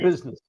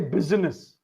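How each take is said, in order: First: The middle vowel is dropped entirely. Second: The middle vowel is clearly pronounced. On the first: The speaker calls it right. "It's keep it tight" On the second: The speaker calls it wrong. "You don't say I again. You don't say business"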